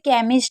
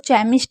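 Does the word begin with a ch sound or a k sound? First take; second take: k sound; ch sound. First: The word begins with a k sound. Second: The word begins with a ch sound. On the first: The speaker calls it right. "सी एच को का के लिए ही लिखा जाएगा" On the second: The speaker calls it wrong. "उसको चैमिस्ट ना पढ़ें"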